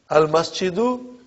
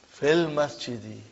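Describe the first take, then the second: First: "Al masjidu" ending on a raised doo. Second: "fil masjidi" ending on dee. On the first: Teacher showing the noun before the change, "masjidu" with doo ending. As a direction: end "masjidu" on oo, tune rising. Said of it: "do became di". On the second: Teacher showing the noun pulled down, "masjidi" with dee ending. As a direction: turn the end of "masjidi" into dee. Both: Shown as a demonstration.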